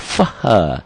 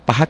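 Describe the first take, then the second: First: The word begins with an f sound. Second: The word begins with a p sound. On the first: The speaker calls it wrong. "Dia ngomongnya ada faha" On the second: The speaker calls it right. "paha kan pakai P"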